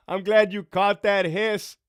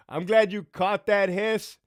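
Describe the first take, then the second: No difference in how they are said.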